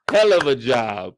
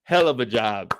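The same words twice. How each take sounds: First: "Hell of a job" repeated louder with more force; louder emphatic praise. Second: Said in the usual way. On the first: Real, not acted. Praising the actress for Raquel, repeated louder. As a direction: hit "Hell" harder the second time.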